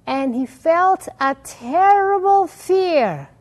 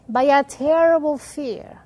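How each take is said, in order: First: Slow, higher and louder, leaning on "terrible"; dramatic scripture reading. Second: Said in the usual way. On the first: Shown as a demonstration. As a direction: read "And he felt a terrible fear" slowly, high and loud with "terrible" stretched. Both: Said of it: "the Torah says".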